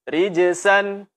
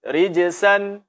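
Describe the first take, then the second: The two takes are said the same way.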